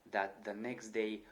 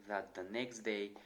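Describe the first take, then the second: No difference in how they are said.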